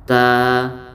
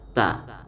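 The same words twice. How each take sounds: First: The vowel is held long. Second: The vowel is held short. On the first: "maka dipanjangkan satu alif" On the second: "jika ada huruf ta berbaris di atas, maka bacanya ta"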